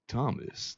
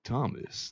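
First: It is read in a put-on sexy voice. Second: The same.

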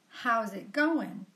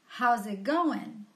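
First: All the words run together in connected speech. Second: All the words run together in connected speech.

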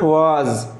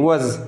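First: The word is said slowly. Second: The word is said quickly. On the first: The speaker calls it wrong. "not was" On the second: The speaker calls it right. "We should pronounce it quickly"

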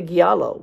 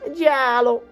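First: It starts with a hard g, like gallo. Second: It starts with a soft j, like jello. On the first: "I used to say giallo because, well, I'm Cuban. And the word looks like gallo" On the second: "It sounds like jello"

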